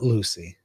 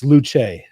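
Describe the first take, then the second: First: "Lucy" said LOO-see; American pronunciation. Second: "Luce" said LOO-chay; Italian pronunciation. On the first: Streamer contrasts it with the chatter's version, American pronunciation. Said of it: "So it's Lucy in America". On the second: Streamer reads a chatter's correction, Italian pronunciation. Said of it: "not Lucy". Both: Shown as a demonstration.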